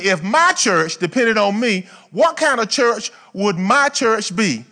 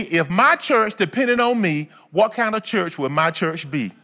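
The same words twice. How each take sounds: First: "what kind of church would my church be" slow, raised and louder; emphatic repeat. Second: Said in the usual way. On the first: Real, not acted. Preacher repeating the church motto to the congregation, emphatically. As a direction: drive home "my church" slowly and firmly. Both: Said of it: "Let me say it again".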